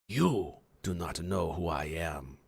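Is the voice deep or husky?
deep. A deep, masculine voice without huskiness.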